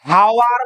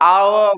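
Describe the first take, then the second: First: The word starts with an h sound. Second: The word starts with a vowel sound. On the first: The speaker calls it wrong. "হাওয়ার বলি কি?" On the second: The speaker calls it right. "আওয়ার বলি"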